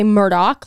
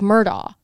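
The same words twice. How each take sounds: First: The name ends with a k sound. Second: The name ends in a vowel sound. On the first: The speaker calls it right. "they say Murdaugh, like Rupert Murdaugh" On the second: The speaker calls it wrong. "you would think that it's like silent, like Murdaugh"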